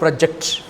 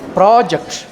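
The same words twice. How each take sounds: First: The stress is on the second syllable. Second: The stress is on the first syllable. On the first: It is the verb meaning to stick out. The speaker calls it wrong. "not project" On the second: It names a planned piece of work. The speaker calls it right. "Next week we have a new project"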